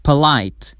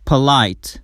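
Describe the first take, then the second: No difference in how they are said.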